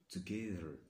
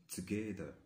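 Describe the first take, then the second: The two takes are said the same way.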